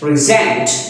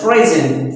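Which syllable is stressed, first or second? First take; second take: second; first. First: The stress is on the second syllable. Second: The stress is on the first syllable. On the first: It is a verb meaning to give or show. "the stress will be on the next or over the next syllable" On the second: It is a noun meaning a gift. "The stress is on the first syllable"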